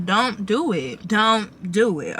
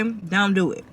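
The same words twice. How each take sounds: First: "don't do it" drawn out slowly, each word leaned on; slow emphatic warning. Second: Said in the usual way. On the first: Acted. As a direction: stretch out "don't do it" as a firm warning. Warning about spending on designer.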